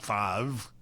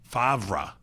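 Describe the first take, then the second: First: The R sound comes before the V sound. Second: The R sound comes after the V sound. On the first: The speaker calls it wrong. "can't pronounce the R before the V" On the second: The speaker calls it right. "That's it"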